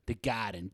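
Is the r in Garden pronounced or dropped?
dropped. The r in Garden is dropped, Boston-style. The speaker calls it right.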